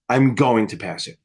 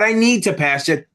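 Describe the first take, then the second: First: Confident. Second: Unsure, pleading. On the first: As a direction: say "I'm going to pass it" low and settled, sure of it. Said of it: "Say it, like, ten times with confidence". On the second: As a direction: say "I need to pass it" as a nervous hope, pitch a bit raised. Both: Shown as a demonstration.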